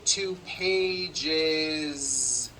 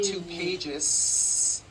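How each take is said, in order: First: The final sound is a buzzing voiced z. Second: The final sound is a hissing unvoiced s. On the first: The speaker calls it right. "with that voiced Z" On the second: The speaker calls it wrong. "It's not two pages, unvoiced"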